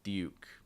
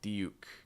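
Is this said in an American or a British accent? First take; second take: British; British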